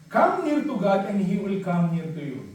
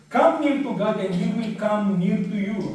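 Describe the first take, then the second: Both takes have the same delivery.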